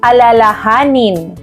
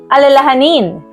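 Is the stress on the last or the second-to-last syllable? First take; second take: second-to-last; last. First: The stress falls on the second-to-last syllable. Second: The stress falls on the last syllable. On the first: To remember or not forget. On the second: Something that causes worry or fear.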